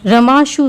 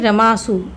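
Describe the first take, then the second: First: The s sound is retroflex. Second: The s sound is dental. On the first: The speaker calls it wrong. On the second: The speaker calls it right.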